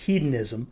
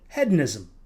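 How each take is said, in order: First: The word is pronounced the American way. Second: The word is pronounced a non-American way. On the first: "the American in me wants to pronounce it hedonism" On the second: "he pronounces it hedonism"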